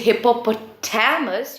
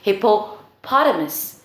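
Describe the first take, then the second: First: The stress falls on the syllable ta. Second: The stress falls on the syllable po. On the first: The speaker calls it wrong. "you're stressing on ta, which is incorrect" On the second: The speaker calls it right. "part of the word that is stressed is hippopotamus"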